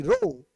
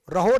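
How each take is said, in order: First: रो said short with no h, pitched higher; correct pronunciation. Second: रहो said with an aspirated h, the wrong way; wrong pronunciation. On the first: Teacher correcting students: रो with no h, higher. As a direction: land रो cleanly with no h, higher. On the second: Teacher showing students the wrong रहो with an h. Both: Shown as a demonstration. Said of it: "रहो नहीं".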